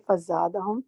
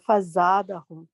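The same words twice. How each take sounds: First: فزادہم read clearly, every syllable fa-za-da-hum; slow careful model of فزادہم; clear Arabic pronunciation. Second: فزادہم stretched slowly and clearly; slow clear Arabic. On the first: (فزادہم کا واضح تلفظ) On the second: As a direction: model فزادہم at half speed. (فزادہم آہستہ اور واضح) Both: Shown as a demonstration. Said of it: "بہت clearly اس کو پڑھیں".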